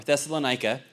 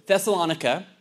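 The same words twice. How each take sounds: First: Thessalonica as thess-uh-luh-NYE-kuh; long "eye" in the stressed NI of Thessalonica; alternate pronunciation. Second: Thessalonica as thess-uh-LON-ih-kuh; alternate pronunciation. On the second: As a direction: stress LON in Thessalonica, short final syllables. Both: Shown as a demonstration. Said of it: "I'll say it both ways".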